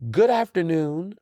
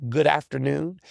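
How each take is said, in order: First: "Good afternoon" slow and emphatic, stress on "Good"; pointed greeting. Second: Said in the usual way. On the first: Shown as a demonstration. Host correcting rude texters, slow emphatic "Good afternoon". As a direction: lean hard on "Good afternoon" to set manners. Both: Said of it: "I put the "good afternoon" in caps".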